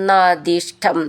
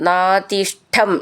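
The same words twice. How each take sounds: Both takes have the same delivery.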